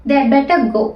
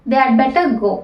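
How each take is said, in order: Both takes have the same delivery.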